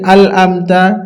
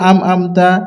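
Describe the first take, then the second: First: The first syllable ends in an l sound. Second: The first syllable ends in an m sound. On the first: "অনেকজন পড়ি আল আমতা" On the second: "অনেকজন পড়ি আম আমতা"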